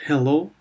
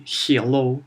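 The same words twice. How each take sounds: First: Said in the usual way. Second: Hello said "hyello" with a Y glide; mock Russian "hyello"; Russian-accented hello. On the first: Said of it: "and not". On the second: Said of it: "when Russians say".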